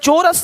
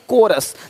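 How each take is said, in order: First: The word begins with a 'ch' sound. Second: The word begins with a 'k' sound. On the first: The speaker calls it wrong. "चोरस नहीं" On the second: The speaker calls it right.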